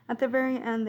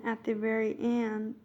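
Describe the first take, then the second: First: Said in the usual way. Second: Southern accent slipping out. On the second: Real, not acted. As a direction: let a Southern US lilt slip in. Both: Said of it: "my southern accent came out".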